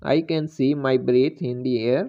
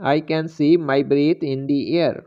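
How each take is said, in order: Both takes have the same delivery.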